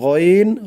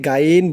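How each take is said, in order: First: The name is said with a thick, heavy sound. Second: The name is said with a thin, light sound. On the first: The speaker calls it right. "মোটা করে বলতে হবে" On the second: The speaker calls it wrong. "অনেকে গাইন বলে"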